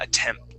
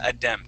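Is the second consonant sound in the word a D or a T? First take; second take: T; D. First: The second consonant sounds like a clear T. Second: The second consonant sounds like a D. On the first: The speaker calls it right. "Yep, with the T" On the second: The speaker calls it wrong. "we wouldn't say uh, attempt"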